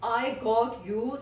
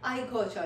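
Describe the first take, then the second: First: The words got and you are said separately. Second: The words got and you blend into gotcha. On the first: "instead of saying आई गॉट यू" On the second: "हम लोग करेंगे आई गोचा"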